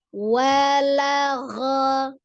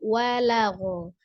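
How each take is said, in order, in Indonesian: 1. Vokal terakhir terbuka, seperti 'a'. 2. Vokal terakhir dibulatkan, seperti 'o'. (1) "tapi walagha ya" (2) "Menyerupai wa bukan walagho"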